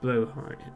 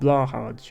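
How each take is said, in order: First: The name sounds roughly like 'blow-high'. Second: The name sounds like 'blah-hazh' in English. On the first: The speaker calls it right. "that is how it's pronounced, or it's not exactly how it's pronounced, it's roughly how it's pronounced. It's a more accurate pronunciation" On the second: The speaker calls it wrong. "which is what English people tend to say for it"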